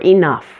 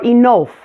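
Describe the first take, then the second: First: The second vowel is a relaxed 'uh' sound. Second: The second vowel is an 'oh' sound. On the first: The speaker calls it right. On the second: The speaker calls it wrong. "substituting an O sound"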